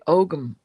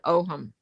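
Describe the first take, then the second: First: The word is said with a hard G. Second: The word is said without a G sound.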